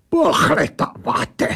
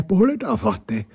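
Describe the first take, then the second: First: Put-on raised, slow accented blurt; indignant German-accented creature; snapped echo. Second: Said in the usual way. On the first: A narrator's reading. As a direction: throw the word back, offended. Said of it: "vybafla ta věc".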